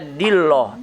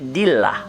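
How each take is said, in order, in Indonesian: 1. Bunyi l dan vokalnya berat dan tebal. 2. Bunyi l dan vokalnya ringan dan tipis. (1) "tidak boleh dibaca dilloh" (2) "Tarkik itu tipis"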